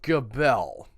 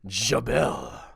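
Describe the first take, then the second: First: The word begins with a hard G sound. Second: The word begins with a soft J sound. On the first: "several pronunciations that had the hard G" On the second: "since it's French, it should be Jabel"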